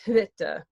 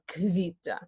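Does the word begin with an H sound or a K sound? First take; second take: H sound; K sound. First: The word begins with an H sound. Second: The word begins with a K sound. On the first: The speaker calls it wrong. "not hvita" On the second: The speaker calls it right. "H and V makes a K V sound"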